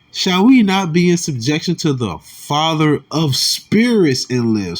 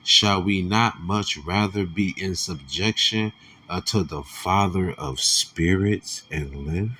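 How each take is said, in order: First: Slower, louder, each word of "Shall we not be in subjection" pressed; emphatic reread. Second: Said in the usual way. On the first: Shown as a demonstration. Preacher rereading the verse to make it sink in: slow emphatic stress. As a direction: reread it slowly, leaning on every word.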